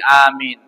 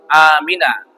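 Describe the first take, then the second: First: The word ends on the final consonant n. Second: The word ends with an added vowel a. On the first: The speaker stops after the word. "Kalau berhenti" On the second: The word is joined to what follows. "Kalau disambung"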